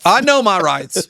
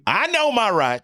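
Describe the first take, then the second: First: Put-on slow, louder Southern accent with stress on know. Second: Put-on drawn-out, slow Southern accent; a slow indignant Southern claim. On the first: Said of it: "I said that with a Southern accent". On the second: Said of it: "with a Southern accent".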